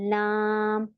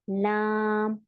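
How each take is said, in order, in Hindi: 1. L पतला है, सपाट और हल्के स्वर के साथ। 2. L पतला है, सपाट और हल्के स्वर के साथ।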